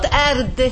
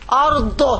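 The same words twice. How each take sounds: First: The final consonant is a plain d. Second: The final consonant is heavy and emphatic. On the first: The speaker calls it wrong. "not أرض, د, no, not د" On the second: The speaker calls it right. "how to pronounce the dad"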